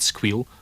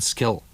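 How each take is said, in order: First: It is said in an Aberdeenshire Doric accent. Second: It is said in an Ayrshire Scots accent. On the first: "Gweed and squeal are quite different from ma Ayrshire" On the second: "ma Ayrshire, gid and skill"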